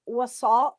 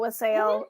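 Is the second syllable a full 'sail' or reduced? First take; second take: reduced; sail. First: The second syllable is reduced, not like 'sail'. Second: The second syllable sounds like 'sail'. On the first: "it said it's pronounced wasal" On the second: "rhymed it with a sail"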